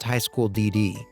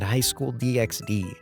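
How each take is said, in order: First: The X is silent between the Ds. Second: The letter X is spoken between the Ds. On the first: The speaker calls it right. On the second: The speaker calls it wrong.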